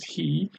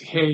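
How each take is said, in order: First: The vowel is a long 'ee' sound. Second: The vowel is a short 'eh' sound. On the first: The speaker calls it wrong. "in English you pronounce this as he" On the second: The speaker calls it right. "but it's he here, uh, the a sound, like in ten"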